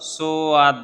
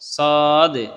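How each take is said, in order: First: A w-glide follows the first consonant. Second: There is no w-glide after the consonant. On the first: The speaker calls it wrong. "সোয়াদ না" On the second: The speaker calls it right. "সদ সোয়াদ না"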